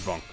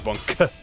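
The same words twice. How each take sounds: First: The final K sound is dropped, like bong. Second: The final K sound is clearly pronounced. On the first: "I say bonk. It sounds like bong" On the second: "I don't say bonk"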